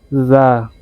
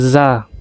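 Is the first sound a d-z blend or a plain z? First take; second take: d-z blend; plain z. First: The first sound falls between d and z. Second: The first sound is a plain z. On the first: The speaker calls it right. "Dia lebih ke antara D dengan Z gitu" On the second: The speaker calls it wrong. "Bukan za. Dia tidak bunyi Z"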